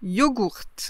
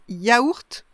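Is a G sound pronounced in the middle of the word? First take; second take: yes; no. First: It starts with yo and has a G sound. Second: It starts with ya and has no G sound.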